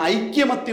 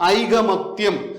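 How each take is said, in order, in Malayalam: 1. 'k' ശബ്ദത്തിന് ശേഷം 'y' ശബ്ദമുണ്ട്. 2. 'k' ശബ്ദത്തിന് ശേഷം 'y' ശബ്ദമില്ല. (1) "ഐക്യമത്യം എന്ന് പറയത്തില്ല" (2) "ഐകമത്യം എന്നാണ്"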